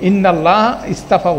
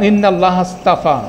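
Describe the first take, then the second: First: The next word restarts with a fresh 'i' vowel. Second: The first word flows straight into the next. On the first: The speaker calls it wrong. "বলবো না" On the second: The speaker calls it right. "এভাবে বলবো"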